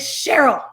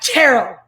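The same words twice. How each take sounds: First: The name begins with a 'sh' sound. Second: The name begins with a 'ch' sound. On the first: The speaker calls it right. "that is Cheryl" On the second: The speaker calls it wrong. "it's not Cheryl"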